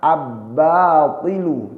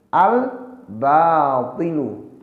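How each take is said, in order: First: The L merges into a doubled B sound. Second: The L sound is pronounced clearly. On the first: The speaker calls it wrong. "bukan dibaca" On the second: The speaker calls it right.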